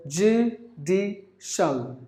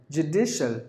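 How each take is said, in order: First: "judicial" drawn out as joo, dee, shul; slow three-beat "judicial"; syllable by syllable. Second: Said in the usual way. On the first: Shown as a demonstration. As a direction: pause after each part of "judicial". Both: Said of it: "Three syllables".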